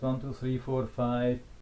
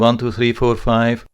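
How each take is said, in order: First: The voice sounds slightly muffled and dull. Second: The voice sounds clear and open. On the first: "it's a little bit muffled, but it's still on a very natural level" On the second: "this has been working, of course, even better"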